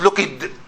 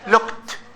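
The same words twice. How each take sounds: First: The ending is an extra 'id' syllable. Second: The ending is a short 't' sound. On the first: The speaker calls it wrong. "not looked" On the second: The speaker calls it right. "ta, ta, looked"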